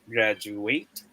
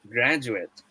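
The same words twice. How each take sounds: First: It is said the way the verb sounds. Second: It is said the way the noun sounds. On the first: It names the action of graduating. "Is it a smiley face?" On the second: It names a person who has graduated. "Or a wink face?"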